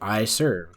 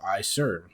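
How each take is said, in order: First: It is said somewhat louder, with more energy. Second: It is said flat and quietly, without energy. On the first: The speaker complies a little, but not enough. "It was a little louder" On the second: The speaker is showing attitude and not complying. "in a monotone volume"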